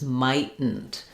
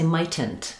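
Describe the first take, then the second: First: Both T sounds are stopped without release. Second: Both T sounds are fully released. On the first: "we'd not let that T out... two unreleased T's" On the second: "They would do both of those T sounds"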